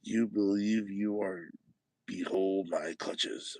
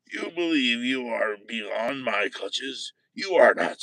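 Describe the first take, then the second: First: Said in the usual way. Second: Line read again with menace, the last words louder; you believe you are beyond my clutches, rising to a loud are; 1 menacing retake. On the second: Shown as a demonstration. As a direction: throw out the threat, punching are.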